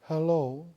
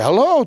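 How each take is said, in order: First: It sounds grieving and sorrowful. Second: It sounds enthusiastic and strongly interested.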